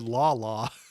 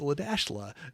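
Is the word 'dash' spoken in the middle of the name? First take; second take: no; yes. First: The name is said without a middle 'dash'. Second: The name is said with 'dash' in the middle. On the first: The speaker calls it wrong. "they said La La" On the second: The speaker calls it right. "no, it's La dash La"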